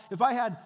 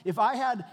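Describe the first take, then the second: No difference in how they are said.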